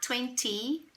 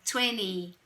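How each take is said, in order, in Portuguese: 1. Ela é pronunciada com sotaque britânico. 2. Ela é pronunciada com sotaque americano. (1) "em inglês britânico, eu posso falar twenty" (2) "no inglês americano você vai ouvir twenty"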